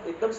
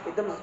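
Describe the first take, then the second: No difference in how they are said.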